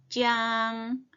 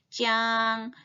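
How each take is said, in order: The two takes are said the same way.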